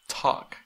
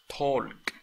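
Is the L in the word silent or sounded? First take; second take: silent; sounded. First: The L is silent in the word. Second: The L is sounded in the word. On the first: The speaker calls it right. "Ahí la L no se pronuncia" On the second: The speaker calls it wrong. "No es talk"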